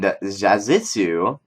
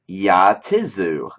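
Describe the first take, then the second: First: The name begins with a J sound. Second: The name begins with a Y sound. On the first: The speaker calls it wrong. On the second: The speaker calls it right.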